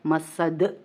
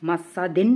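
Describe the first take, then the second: First: मसद ending on a bare d; waqf stop. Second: मसदिन with final -in sounded; full tanween ending. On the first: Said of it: "तो ये बन जाएगा". (मसद, दाल पर जज़म के साथ) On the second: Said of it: "दो ज़ेर की तनवीन है". (मसदिन, दो ज़ेर की तनवीन के साथ) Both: Shown as a demonstration.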